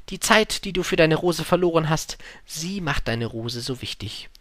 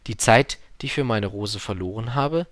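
First: Wise fox. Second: Learner's simple echo; little prince repeating. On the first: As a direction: teach it earnestly, slowing at the end. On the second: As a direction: repeat it to memorise. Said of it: "sagte der kleine Prinz, um es sich zu merken". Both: Acted.

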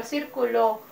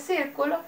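First: "circuló" with the weight on the last syllable, LÓ; stress on LÓ in "circuló". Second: "círculo" with the weight on the first syllable, CÍR; stress on CÍR in "círculo". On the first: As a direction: land on the final LÓ of "circuló", the verb. ("circuló" con acento en la última sílaba, LÓ) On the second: ("círculo" con acento en CÍR) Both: Shown as a demonstration. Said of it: "al pronunciarla su significado es diferente".

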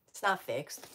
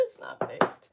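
First: Said in the usual way. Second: High-pitched giggling repeat; high laughing squeal. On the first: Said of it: "repeated complaint". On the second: Shown as a demonstration. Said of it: "repeated with laugh".

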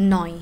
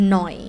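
Both takes have the same delivery.

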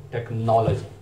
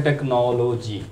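First: टेक्नोलॉजी as tek-NOL-uh-jee; rounded stressed "nol", weak "uh" after it in टेक्नोलॉजी; British pronunciation. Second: टेक्नोलॉजी slowly as tek-no-LO-jee; drawn-out full "o" vowels in टेक्नोलॉजी; common mispronunciation. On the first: Teacher giving the correct form, British tek-NOL-uh-jee for टेक्नोलॉजी. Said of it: "जो British pronunciation है". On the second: Teacher showing the usual reading, slow tek-no-lo-jee for टेक्नोलॉजी. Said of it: "इसको टेक्नोलॉजी पढ़ा जाता है". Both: Shown as a demonstration.

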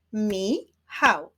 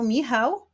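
First: "Michał" split into mi, chał; syllable by syllable. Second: Said in the usual way. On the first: Shown as a demonstration. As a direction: clap out "Michał" in two separate beats. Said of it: "wyklaszczmy sylaby". („Michał” sylabami: mi, chał) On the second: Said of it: "wyklaszczmy sylaby w imieniu".

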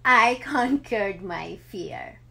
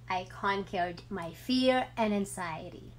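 First: Slow, louder, laughing through the words; a happy laugh breaking into the line. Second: Said in the usual way. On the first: Real, not acted. Mother sharing her triumph, laughing as she says it. Mother tells of conquering fear.

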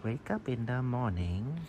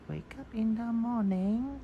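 First: Said in the usual way. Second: High sing-song chant; lilting chant to the cat; sung, singsong. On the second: Acted. Voicing cat, sung line.

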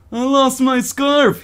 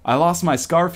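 First: High, drawn-out pitiful whine; hammed-up pathetic plea, very slow. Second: Said in the usual way. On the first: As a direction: wail it pitifully, stretching the words. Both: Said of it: "he says in a pitiful voice".

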